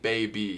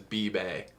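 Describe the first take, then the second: First: The word is said with its usual vowels. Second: The word is said with its vowels swapped. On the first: "Instead of saying baby" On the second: "he says be-bay"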